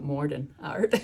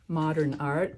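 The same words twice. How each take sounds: First: It is said with a New England accent. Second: It is said with a standard accent. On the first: "it comes out modern art" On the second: "when she says modern art"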